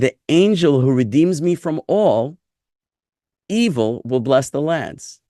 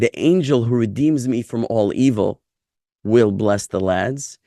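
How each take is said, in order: First: The phrase breaks after 'all', not 'evil'. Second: The phrase breaks after 'evil', not 'all'.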